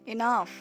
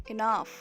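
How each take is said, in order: No difference in how they are said.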